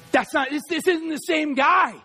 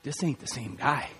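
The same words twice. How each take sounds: First: Emphatic declaration at full voice; forceful retelling. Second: Very low, hushed voice; subdued, much deeper and softer; boxer's quiet reply. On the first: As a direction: proclaim it firmly, stretching the words. Repeats boxer's line with force. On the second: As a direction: say it low and under your breath. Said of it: "Lewis just looks at him and goes". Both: Retold or imitated.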